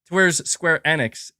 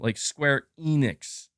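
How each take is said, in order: First: The name is pronounced smoothly, sounds running together. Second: The name is pronounced with over-careful, separated sounds. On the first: The speaker calls it right. "it it it just kind of flows" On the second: The speaker calls it wrong. "it sounds like too enunciated"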